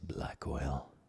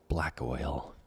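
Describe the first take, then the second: First: It is said in a deep voice. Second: It is said in a normal voice.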